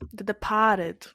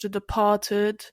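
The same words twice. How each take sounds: First: It is said in a put-on Boston accent. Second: It is said in the speaker's ordinary accent.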